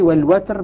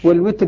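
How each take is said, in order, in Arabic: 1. الصائت الأول صوت 'a'. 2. الصائت الأول صوت 'i'. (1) "بفتح الواو" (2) "بكسر الواو"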